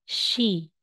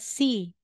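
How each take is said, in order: First: The syllable starts with an sh sound. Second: The syllable starts with a plain s sound. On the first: The speaker calls it right. "S H po, she" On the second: The speaker calls it wrong. "hindi mo po sasabihin na si"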